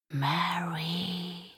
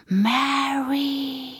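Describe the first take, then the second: First: Breathy, toneless whisper of a name; ghostly whisper. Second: High, drawn-out spooky call; ghostly call. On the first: Voice from the closet whispers the name eerily. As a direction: call her name like a spirit. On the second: Voice from the closet calls the name high and eerie. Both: Acted. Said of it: "gespenstisches Flüstern".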